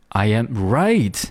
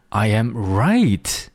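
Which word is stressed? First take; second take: right; right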